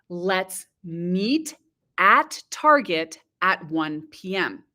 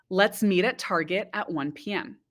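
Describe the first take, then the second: First: It is said at a slower pace. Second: It is said at a faster pace.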